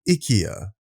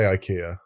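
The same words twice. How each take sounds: First: It is said with a Swedish accent. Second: It is said with an English accent.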